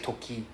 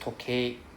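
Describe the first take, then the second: First: The word ends in a short plain 'i' sound. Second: The word ends in a full 'ei' sound. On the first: The speaker calls it wrong. "just now you said toki right" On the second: The speaker calls it right. "so it's just tokay"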